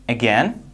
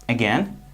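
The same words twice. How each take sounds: No difference in how they are said.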